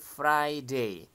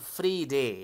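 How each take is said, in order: First: The first syllable has an 'eye' vowel. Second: The first syllable has an 'ee' vowel. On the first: The speaker calls it right. "tapi Friday" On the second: The speaker calls it wrong. "Bukan free day ya"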